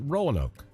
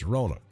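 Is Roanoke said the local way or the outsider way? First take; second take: outsider; local. First: Roanoke is said the common outsider way. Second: Roanoke is said the local Alabama way. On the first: The speaker calls it wrong. "Not Roanoke" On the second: The speaker calls it right. "there's a proper way to say Roanoke"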